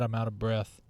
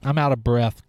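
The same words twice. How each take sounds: First: Quiet, breathless out of breath mutter; softer, winded out of breath aside. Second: Slightly out of breath; breathless after talking. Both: Real, not acted.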